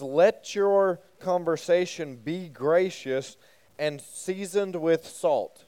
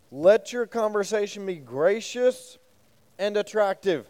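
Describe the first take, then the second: First: Slow, deliberate verse reading; reading scripture aloud. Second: Slow, higher scripture reading; reading scripture aloud. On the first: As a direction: read each word of the verse carefully for the group. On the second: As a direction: read the verse out deliberately to the group. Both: Shown as a demonstration. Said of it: "the E S V actually says".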